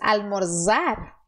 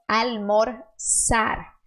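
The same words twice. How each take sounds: First: The middle consonant is a buzzing Z sound. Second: The middle consonant is a hissing S sound. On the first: The speaker calls it wrong. "Eu tenho que fazer esse som? Z" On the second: The speaker calls it right. "você vai fazer o som de S"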